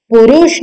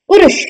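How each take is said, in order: First: पुरुष with a long oo in रु; wrong long u. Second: पुरुष with short u in रु; correct short u. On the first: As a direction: stretch पुरुष into "puroosh". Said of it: "बड़ी ऊ की मात्रा नहीं". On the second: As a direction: keep पुरुष quick, "purush". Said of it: "छोटी ऊ की मात्रा". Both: Shown as a demonstration.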